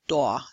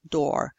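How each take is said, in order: First: The final R sound is dropped entirely. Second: The final R sound is clearly pronounced. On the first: "people from uh, New York, Boston, uh, may not pronounce the R" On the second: "most people in uh, the U S, Canada, would pronounce the R in these"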